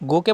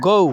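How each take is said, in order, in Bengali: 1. স্বরধ্বনিটি একটি সরল, স্থির 'o' ধ্বনি। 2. স্বরধ্বনিটি 'o' থেকে 'oo'-এর দিকে গড়িয়ে যায়। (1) "গোকে বলবেন গৌ" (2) "বিদেশিরা ব- গৌ বলে"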